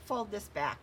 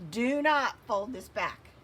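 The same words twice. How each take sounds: First: Said in the usual way. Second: "not" punched hard and loud, slowed down; loud slow warning with NOT hit hard; stress on NOT. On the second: Real, not acted. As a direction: warn them, leaning on "not" in "Do not fold this back". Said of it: "I'm just doing it so you can see".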